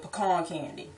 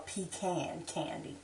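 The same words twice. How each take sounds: First: "pecan" as puh-KAHN; AH vowel in stressed second syllable of "pecan"; local pronunciation. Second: "pecan" as PEE-can; long EE in "pecan", softer; other pronunciation. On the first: Naming the hometown candy, "pecan" as puh-KAHN. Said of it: "where I'm from, we call it". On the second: Offering the other name, "pecan" as PEE-can. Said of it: "or pecan candy". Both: Shown as a demonstration.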